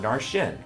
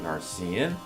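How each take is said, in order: First: The middle consonant is a sh sound. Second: The middle consonant is an s sound. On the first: "that's how some people say his name" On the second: "I think Narcian, because the character is a narcissist"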